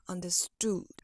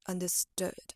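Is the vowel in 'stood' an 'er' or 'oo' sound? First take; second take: oo; er. First: The last vowel is a long, rounded 'oo' sound. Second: The last vowel is a relaxed, lazy 'er'-like sound. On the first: The speaker calls it wrong. "instead of understood" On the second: The speaker calls it right. "it would sound more like understood"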